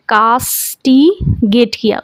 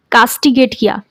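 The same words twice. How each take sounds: First: castigate किया said slowly, each syllable drawn out; slow repeat. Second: Said in the usual way. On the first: Shown as a demonstration. Teacher repeating the word slowly for students to catch it. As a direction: stretch castigate किया out for the class.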